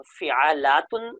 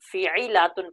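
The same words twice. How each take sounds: First: فعالاتن said slowly with a short "a" after the ain; slow, measured فعالاتن, open "a" in the middle; fatha on the middle letter. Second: فعیلاتن with an "i" after the ain; kasra on the middle letter. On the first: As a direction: sound out فعالاتن as fi-'a-laa-tun. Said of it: "عین کلمے پر فتح بھی پڑھی جا سکتی ہے". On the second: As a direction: sound out فعیلاتن as fi-'i-laa-tun. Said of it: "کسرہ بھی پڑھی جا سکتی". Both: Shown as a demonstration.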